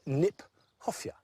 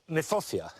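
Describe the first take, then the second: First: The word starts with a sounded K. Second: The word starts without a K sound. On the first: The speaker calls it right. "We should pronounce it Kniphofia" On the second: The speaker calls it wrong. "which is an awkward word, not an easy word to say, in fact is mispronounced"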